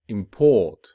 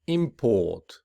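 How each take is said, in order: First: "import" with a loud, punched second syllable; stress on second syllable. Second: Noun form, lean on the start of "Import"; stress on first syllable. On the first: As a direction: verb form, hit the end of "import". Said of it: "whereas the verb will be". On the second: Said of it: "the noun will be". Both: Shown as a demonstration.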